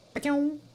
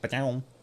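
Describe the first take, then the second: First: It is said in a high-pitched voice. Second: It is said in a deep, low voice.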